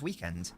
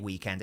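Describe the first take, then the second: First: The stress falls on the first syllable. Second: The stress falls on the second syllable. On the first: The speaker calls it right. "It's weekend" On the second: The speaker calls it wrong. "I don't know why I had that inflection at the end there. I never say weekend"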